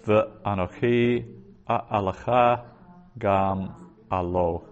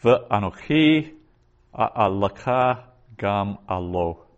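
First: "Ve'anochi a'alaka gam alo" repeated slowly, "gam alo" drawn out; teacher repeating "Ve'anochi a'alaka gam alo" for dictation; slower repeat. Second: "Ve'anochi a'alaka gam alo" read slowly, "Ve'anochi" raised; first careful reading of "Ve'anochi a'alaka gam alo"; slow Hebrew reading. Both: Shown as a demonstration. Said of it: "Genesis forty-six four".

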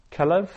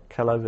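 First: Kelev said much higher with a quick rise; emphatic citation. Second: Said in the usual way. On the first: Shown as a demonstration. Teacher presenting Kelev to Hebrew students, high rising citation. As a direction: pitch Kelev up high as a model word. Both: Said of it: "teacher drills Hebrew vocabulary".

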